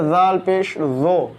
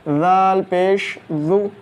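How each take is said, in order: First: The final vowel sounds like o. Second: The final vowel sounds like u. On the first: The speaker calls it wrong. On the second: The speaker calls it right.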